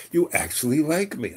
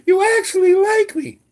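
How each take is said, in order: First: Said in the usual way. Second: Much higher, louder gushing award-speech voice; overjoyed actress thanking the crowd, much higher and louder; Sally Field. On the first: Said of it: "He actually did". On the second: Retold or imitated. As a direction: squeal it like a tearful Oscar winner. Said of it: "that moment at the Oscars when Sally Fields got her little thing".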